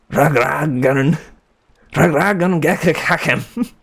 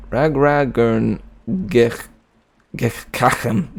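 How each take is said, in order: First: High, slow mock German accent; exaggerated German accent, pitched up. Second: Said in the usual way. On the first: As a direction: spit out the name in a hammed-up German accent. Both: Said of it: "say my name in a German accent".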